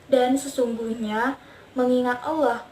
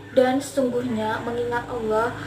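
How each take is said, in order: The two takes are said the same way.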